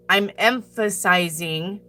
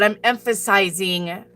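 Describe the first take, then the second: First: Slow, drawn-out stress on "emphasizing"; emphatic. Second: Said in the usual way. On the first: Shown as a demonstration. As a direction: stretch out every syllable of "emphasizing" for emphasis. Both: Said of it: "but I'm emphasizing".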